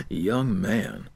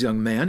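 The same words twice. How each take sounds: First: Put-on lower, slow stern YOUNG man; stern official. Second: Put-on cold, lifting tune on young man; cold teacher. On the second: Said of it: "She coldly continued".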